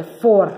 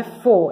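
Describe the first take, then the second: First: "for" with the R clearly closing the syllable; final R sounded. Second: "fo" as an open syllable with no final R; without the R. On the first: Teacher correcting the syllable, "for" with its R sounded. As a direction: say "for", pronouncing the final R. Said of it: "é for". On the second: Teacher showing the wrong syllable, "fo" without R. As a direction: say "fo", dropping the R at the end. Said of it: "Não é fo". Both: Shown as a demonstration.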